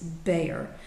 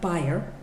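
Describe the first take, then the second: First: The name is said the American way. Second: The name is said the German way.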